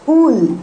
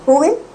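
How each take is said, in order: First: The words merge into one contracted syllable. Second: Two words are said fully and separately.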